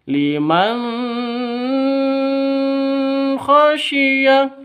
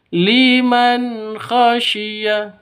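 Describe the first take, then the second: First: The nun is cut off with an abrupt jerk. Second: The nun is pronounced clearly and plainly. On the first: The speaker calls it wrong. "itu salah atau disentak" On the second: The speaker calls it right. "Yang betul harus jelas"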